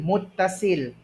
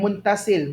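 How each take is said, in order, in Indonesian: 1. Bagian tengahnya ada t yang dobel tanpa n. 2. Bagian tengahnya ada n sebelum t.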